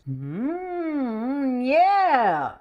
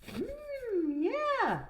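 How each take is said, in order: First: It grows louder into the yeah. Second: It is said quietly throughout.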